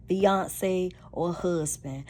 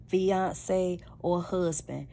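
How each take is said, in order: Both takes have the same delivery.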